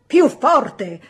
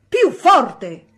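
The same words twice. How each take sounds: First: Loud, raised order; teacher shouting. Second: Teacher shouting. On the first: Teacher shouting at the mumbling boy to speak up. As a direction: shout it to be heard over the class. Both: A narrator's reading. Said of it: "gridò l'insegnante".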